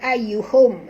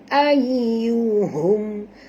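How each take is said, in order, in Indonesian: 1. Bunyi h itu keras dan tajam. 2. Bunyi h itu lembut dan ringan. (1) "bukan ayyuhum ya" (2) "ha di sini ha simpul, bunyi dia ayyuhum"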